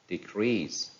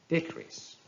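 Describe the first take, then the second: First: "decrease" as de-CREASE; stress on second syllable. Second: "decrease" as DE-crease, high start; stress on first syllable. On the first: Teacher reading a verb, "decrease" stressed on CREASE. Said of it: "stress falls on the second syllable". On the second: Teacher reading a noun, "decrease" stressed on DE. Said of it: "stress on the first syllable". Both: Shown as a demonstration.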